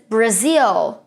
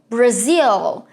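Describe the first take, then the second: No difference in how they are said.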